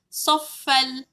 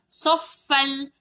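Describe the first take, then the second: No difference in how they are said.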